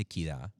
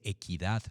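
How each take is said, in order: First: "equidad" said as "equidá"; dropped final D. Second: "equidad" with its last D pronounced; sounded final D. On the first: Narrator shows his habit, "equidad" without final D. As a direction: end "equidad" on the vowel, no D. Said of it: "uno dice equidad". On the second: Narrator shows careful diction, "equidad" with final D. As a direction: finish "equidad" on an audible D. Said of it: "uno no dice equidad". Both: Shown as a demonstration.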